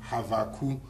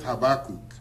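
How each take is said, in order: First: The name is pronounced the Hebrew way. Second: The name is pronounced the English way.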